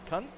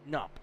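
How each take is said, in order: First: The K at the start is pronounced. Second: The K at the start is silent.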